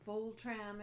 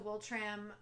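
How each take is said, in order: First: The name is said in its original way. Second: The name is said in an anglicized way. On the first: The speaker calls it right. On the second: The speaker calls it wrong.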